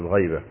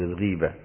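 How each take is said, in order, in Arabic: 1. الحركة الأولى هي 'ay'، مثل al-ghayba. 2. الحركة الأولى هي 'ee'، مثل al-ghība. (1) "لا تقل الغيبة" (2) "قل الغيبة، كسر الغي"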